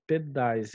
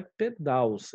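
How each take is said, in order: First: Said in the usual way. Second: Pedais said as "pedaws", ending in -aws; wrong plural. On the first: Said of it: "é pedais". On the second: Shown as a demonstration. Teacher voicing the students' wrong plural, pedais as pedaws. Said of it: "não é pedais".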